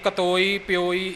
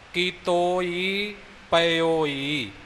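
First: The syllables are clipped and shortened. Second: Every syllable is said in full. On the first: The speaker calls it wrong. "ਜੋ ਬਿਲਕੁਲ ਹੀ ਅਸ਼ੁੱਧ ਹੈ" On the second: The speaker calls it right. "ਸ਼ੁੱਧ ਉਚਾਰਨ ਹੋਵੇਗਾ"

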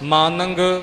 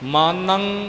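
First: The word ends with an added g sound. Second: The word ends on a plain nasal sound. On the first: The speaker calls it wrong. "ਮਾਨੰਗ ਗੱਗਾ ਨਹੀਂ ਬੋਲਣਾ" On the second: The speaker calls it right. "ਬਸ ਟਿੱਪੀ ਦੀ ਆਵਾਜ਼ ਇੱਥੇ ਖਤਮ ਹੋ ਗਈ"

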